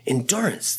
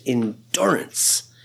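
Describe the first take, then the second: First: Said in the usual way. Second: Whispered. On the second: Acted. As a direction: breathe the word endurance, slow and voiceless. Preacher repeats key word.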